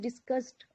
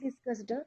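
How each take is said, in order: First: The ending is light and blended into the word. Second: The ending is stressed as a separate extra syllable. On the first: The speaker calls it right. "It is discussed" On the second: The speaker calls it wrong. "not discussed"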